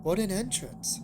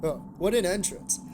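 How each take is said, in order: First: Sarcastic. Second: Dry sarcastic remark. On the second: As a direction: say it with heavy irony. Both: A narrator's reading. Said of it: "I said that sarcastically".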